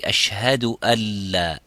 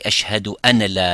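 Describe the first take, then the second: First: The n sound merges into a doubled l. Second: The n sound is clearly pronounced before la. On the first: The speaker calls it right. "you say" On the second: The speaker calls it wrong. "you don't say"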